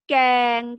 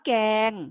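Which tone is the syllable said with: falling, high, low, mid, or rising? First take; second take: mid; mid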